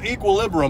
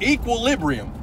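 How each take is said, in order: First: The word is pronounced in a garbled way. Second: The word is pronounced in the standard way. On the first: The speaker calls it wrong. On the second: The speaker calls it right.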